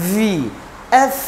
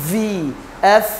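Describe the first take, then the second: The two takes are said the same way.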